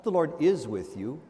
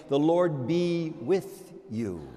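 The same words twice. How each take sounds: First: Said in the usual way. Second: Slow, measured liturgical wish; slow subjunctive blessing. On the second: Shown as a demonstration. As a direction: say it as a hopeful wish. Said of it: "by saying".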